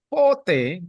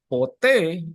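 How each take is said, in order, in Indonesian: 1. Penekanannya ada di suku kata pertama. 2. Penekanannya ada di suku kata kedua. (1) "pote kalau penekanannya di o" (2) "ketika penekanannya di e"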